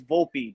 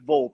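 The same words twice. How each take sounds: First: The name is said with weight and respect. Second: The name is said casually, without respect. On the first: The speaker calls it right. "you say it with respect" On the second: The speaker calls it wrong. "It's not Volpe"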